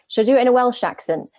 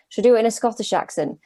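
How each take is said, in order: First: Quick, lightly put-on Welsh accent; higher, hurried try at a Welsh lilt; sample a Welsh accent in passing. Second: Quick, lightly put-on Scottish accent; higher, hurried try at a Scottish accent; sample a Scottish accent in passing. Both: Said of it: "ten voice notes of different accents".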